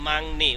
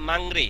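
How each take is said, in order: First: The second syllable starts with an N sound. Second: The second syllable starts with an R sound. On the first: The speaker calls it right. "উচ্চারণ হবে কি? মাংনি।" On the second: The speaker calls it wrong. "মাংরি, তাই না? কিন্তু না"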